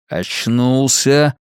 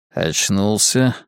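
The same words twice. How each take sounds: First: Drawn-out, pressing repeat; insistent repeat. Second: Slow, rising question; captor's question. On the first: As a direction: repeat it slowly, with more weight. Captor repeats it while stabbing. (медленно, с нажимом) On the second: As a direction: ask it slowly, checking if he's awake. Captor asks the waking victim. (медленный вопрос с подъёмом) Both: A narrator's reading.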